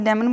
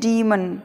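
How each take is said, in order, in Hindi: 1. पहला स्वर 'deh' जैसा बोला जाता है। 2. पहला स्वर 'dee' जैसा बोला जाता है। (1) "हम इसे डेमन बोलते हैं ना" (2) "असल में... इसको बोलते हैं डीमन"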